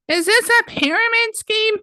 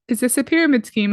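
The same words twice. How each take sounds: First: The question is asked in a mocking, exaggerated tone. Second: The question is asked in a plain, neutral tone. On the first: The accusation is made to seem silly. "it's just a way to delegitimize" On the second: It is a sincere, serious question. "instead of just saying"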